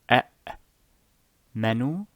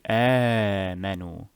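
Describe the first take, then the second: First: It starts with two separate glottal stops. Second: It starts with one short-lengthened open vowel. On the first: "some words start with two hamzas" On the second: "So this becomes mad badal"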